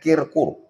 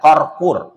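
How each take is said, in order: First: The first syllable uses the vowel i. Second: The first syllable uses the vowel a. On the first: "bukan kirkur" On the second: "bukan qarqur"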